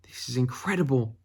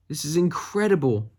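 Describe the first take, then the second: First: Said in the usual way. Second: Really mean it this time; excited. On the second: Shown as a demonstration.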